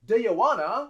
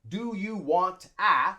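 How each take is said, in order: First: The T in want is dropped. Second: The T in want is pronounced. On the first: The speaker calls it right. "So we drop the T and we say wanna" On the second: The speaker calls it wrong.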